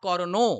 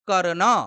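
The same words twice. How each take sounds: First: The word ends with an added 'o' vowel. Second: The word ends on a bare consonant. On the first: The speaker calls it wrong. "ওকার দেওয়া নেই যে আমরা বলবো কর্ণ" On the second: The speaker calls it right. "ঠিক বলেছেন"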